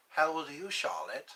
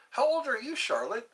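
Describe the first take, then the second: First: Lightly voiced Hannibal Lecter. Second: Said in the usual way. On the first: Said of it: "I like using my Hannibal Lecter voice". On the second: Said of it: "my Hannibal Lecter voice".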